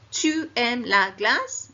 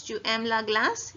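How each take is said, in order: First: Slow, louder, pitch climbing on glace; rising question tune. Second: Everyday question with the rise on "glace"; natural rising question. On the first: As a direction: let the voice climb up to "glace" slowly. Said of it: "Your voice goes up towards the end". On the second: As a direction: ask it lightly, rising on "glace". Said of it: "Use the sound of your voice". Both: Shown as a demonstration.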